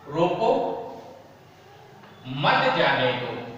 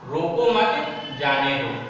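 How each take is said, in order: First: The pause comes right after 'roko'. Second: The pause comes right after 'mat'.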